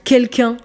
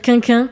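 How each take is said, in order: First: Both distinct syllables are said, kel-kun. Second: The first syllable is repeated, like quin-quin.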